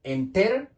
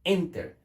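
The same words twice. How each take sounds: First: "Enter" tried as en-TER, rising on TER; questioning "Enter" with the weight on TER; stress on second syllable. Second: "Enter" as EN-ter, falling after EN; "Enter" with the accent up front on EN; stress on first syllable. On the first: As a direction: push the last syllable of "Enter" up, as a test. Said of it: "¿el acento dónde lo tiene?". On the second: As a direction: hit the EN of "Enter" and let TER drop. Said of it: "lo tiene en esta sílaba". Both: Shown as a demonstration.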